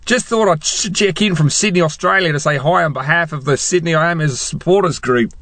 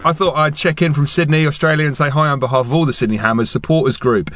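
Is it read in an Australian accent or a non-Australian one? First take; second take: Australian; non-Australian. First: It is read in a put-on Australian accent. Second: It is read in his usual non-Australian accent.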